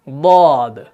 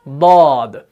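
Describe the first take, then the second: No difference in how they are said.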